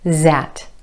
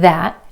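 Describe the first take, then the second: First: It begins with a z sound. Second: It begins with a voiced th sound.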